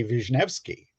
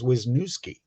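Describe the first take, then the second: First: Wisniewski said as "vish-NEV-ski"; Polish pronunciation. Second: Wisniewski said as "wiz-NOO-ski"; Americanized Wisniewski, W sound and "noo" in the middle; anglicized pronunciation. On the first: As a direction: say Wisniewski the Polish way, "veesh-NEF-skee". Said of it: "it should be". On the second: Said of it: "they said it that way". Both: Shown as a demonstration.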